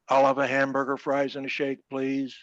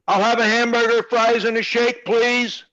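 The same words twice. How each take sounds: First: It is said in a regular voice. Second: It is said in a loud voice.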